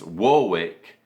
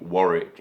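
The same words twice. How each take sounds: First: It is said the way New York locals say it. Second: It is said the way people in England say it. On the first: It refers to the town in New York State. "if you're referring to the town in uh, in New York State" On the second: It refers to the town in England. "if you're referring to Warwick in England"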